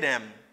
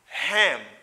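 First: The h at the start is dropped and swallowed. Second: The h at the start is clearly pronounced. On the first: "li pa accentué H la, li swallow, li réduit" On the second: "I say him"

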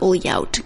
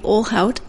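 First: The 'lh' is said like a 'ly' sound. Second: The 'lh' is said as 'l' then 'h'. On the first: The speaker calls it wrong. "because my brain is trying to learn Portuguese" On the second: The speaker calls it right. "you know how to pronounce it"

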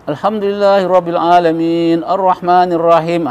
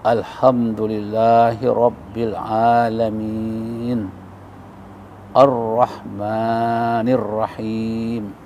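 First: It is recited quickly. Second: It is recited slowly and deliberately.

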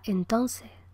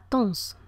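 First: All syllables are said, with final consonants dropped. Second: The word is cut down to one short syllable. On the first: "un cubano, dirá entonces, con ceseo y con absoluta pérdida de las consonantes finales" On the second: "queda reducido a tons"

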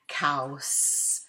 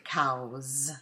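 First: The word ends with a voiceless s sound. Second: The word ends with a voiced z sound. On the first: "I kept it a s over here for cows" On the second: "it could very easily be turned into cows"

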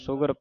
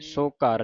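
First: It is said joined as a single word. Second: It is split into two separate parts. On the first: The speaker calls it right. "ਪਾਠ ਇਕੱਠਾ ਹੈ" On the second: The speaker calls it wrong. "ਨਹੀਂ ਕਹਿ ਦੇਣਾ"

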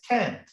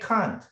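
First: It is said in an American accent. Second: It is said in a British accent.

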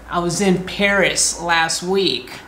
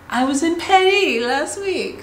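First: Paris is said plainly, the ordinary English way. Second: Paris is said in an affected, Frenchified way. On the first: The speaker sounds ordinary. The speaker calls it wrong. "If you go like, I was in Paris last week, it's not as cool" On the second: The speaker sounds cool and sophisticated. The speaker calls it right. "That's the cool way"

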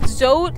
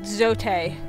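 First: The name rhymes with the English word coat. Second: The name is said with Spanish-style vowels. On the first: "like I'm wearing a coat" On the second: "like the Spanish pronunciation of this"

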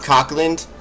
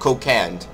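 First: The name is said like Cock-land. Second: The name is said like Co-cand. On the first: The speaker calls it wrong. "The name over here is not Cockland" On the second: The speaker calls it right. "It's called Cocand"

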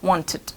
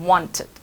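The two takes are said the same way.

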